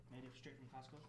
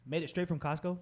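First: Said in the usual way. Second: Raised questioning tone on Costco; questioning correction. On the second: Real, not acted. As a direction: check the claim, a bit louder.

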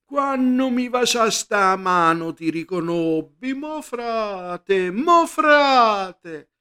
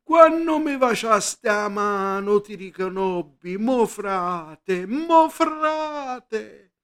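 First: High, slow Sicilian puppet cry; shouting puppeteer. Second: High, slow, wailing Sicilian cry; shouting puppeteer. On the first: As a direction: wail it out like a pupo on stage. (grido del puparo in siciliano) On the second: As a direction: call it from behind, haunting and high. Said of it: "il puparo che gridava". (il puparo grida il suo lamento) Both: Acted.

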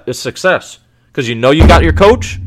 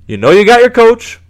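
First: Said in the usual way. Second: Higher and louder on "You know you got your coach"; emphatic repeat. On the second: Real, not acted. Fan insisting to Giants fans, louder and higher.

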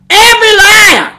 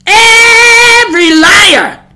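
First: "Every liar" cried out high and loud; emphatic EVERY LIAR. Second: "Every" stretched very long, high and loud; drawn-out EVERY. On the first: Preacher repeating what the Bible says, "Every liar" in one high burst. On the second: Preacher driving the warning home, "Every" hugely drawn out. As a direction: hold the first vowel of "Every" like a wail, then "liar". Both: Real, not acted.

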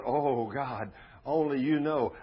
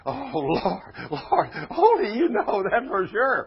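First: "Oh, God, only you know" with moderate weight, "you know" lifted a little; emphatic scripture quote. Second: "Oh, Lord" drawn as a high, loud cry, "only you know" punched; heavy emphasis. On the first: Preacher quoting Ezekiel's answer, moderately emphatic. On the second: Preacher playing up Ezekiel's answer to God, heavily emphatic. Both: Shown as a demonstration. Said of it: "I have to put the emphasis on that".

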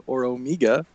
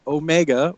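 First: Omega as "oh-MEE-ga", long ee. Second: Omega as "oh-MEH-ga", MEH short; Omega with long o. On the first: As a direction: say Omega with an "ee" in the middle. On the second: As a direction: say Omega with "oh-MAY-ga" sounds. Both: Shown as a demonstration. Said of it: "switching between Omega and Omega on purpose".

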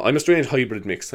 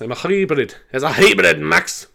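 First: Said in the usual way. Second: Put-on higher, playful Scottish accent; mock Scottish, pitched up. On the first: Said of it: "sound great in a Scottish accent". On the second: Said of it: "they sound great in a Scottish accent".

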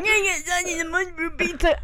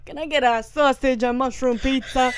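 First: Higher, garbled New Jersey Italian caricature; thicker New Jersey accent. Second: Imitated New Jersey Italian pizza order; Italian New Jersey accent. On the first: Retold or imitated. Retelling a video where the accent gets progressively worse, garbled New Jersey accent. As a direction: slur the order into an overdone Jersey accent. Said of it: "progressively, like, him getting more, like, into the accent". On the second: Retelling a viral video, mild New Jersey Italian accent. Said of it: "speaking of Italian, New Jersey, like, accents".

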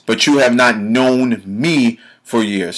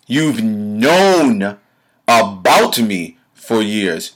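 First: Slow, with "not" and "me" leaned on; stress on ME. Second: Drawn-out "known", punched "about"; slowly single out the word "about"; stress on ABOUT. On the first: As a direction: set "me" apart with firm stress. Corrects with the contrasting phrase. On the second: Contrasts knowing about with knowing. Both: Real, not acted.

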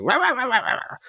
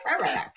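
First: High-pitched nagging rah rah; mock nagging wife. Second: High-pitched rah rah, lightly done; mock nagging wife. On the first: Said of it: "the wife who was just like". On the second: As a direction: show the nagging wife from the stage. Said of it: "what I did on stage".

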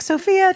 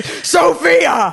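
First: Said in the usual way. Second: Drawn-out shouted name, like an angry mom; mock hellish yell. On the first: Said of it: "it would turn from". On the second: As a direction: imitate a mother roaring from the pits of hell. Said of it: "a voice from the fiery pits of hell".

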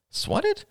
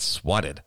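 First: SWATTED as a very high rising question; questioning echo. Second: Said in the usual way. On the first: Acted. Rachel querying Ian's word "swatted", startled rising question. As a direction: echo "swatted" in startled disbelief, pitch soaring.

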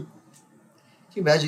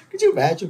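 First: Slow it down, savoring the picture; slow, wondering repeat of the question; slow, marveling repeat. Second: Said in the usual way. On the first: Shown as a demonstration. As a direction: draw out the repeat slowly. Repeats question, second drawn out.

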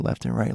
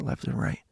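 First: Said in the usual way. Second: Fading whisper. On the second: Retold or imitated. Teller fading out describing the bouncing ball, whispered. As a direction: trail off into a breathless whisper.

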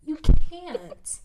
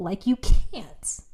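First: "You can't" punched higher and much louder; emphatic repeat, louder. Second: Said in the usual way. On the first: Shown as a demonstration. Insisting to her friend he can't, punched loud. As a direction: hit "You can't" hard the second time.

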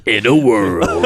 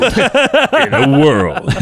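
First: Low, slow trailer announcer; deep dramatic movie trailer read. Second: High and very slow, laughing; movie trailer voice. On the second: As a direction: trailer line breaking into laughter. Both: Shown as a demonstration. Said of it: "do your movie voice".

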